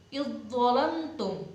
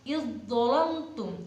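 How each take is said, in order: The two takes are said the same way.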